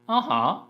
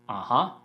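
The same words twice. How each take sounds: First: It has an unusual, strange melody. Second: It has the usual melody for agreeing. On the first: The speaker calls it wrong. "it sounds weird" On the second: The speaker calls it right. "remember the melody of this expression"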